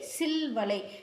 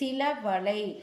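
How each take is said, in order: First: The final a of sila is dropped, giving silvalai. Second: The final a of sila is kept before valai. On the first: "அகரம் கெட்டு புணர்ந்ததற்கு எடுத்துக்காட்டு" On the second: "அகரம் கெடாமல் புணர்ந்ததற்கு எடுத்துக்காட்டு"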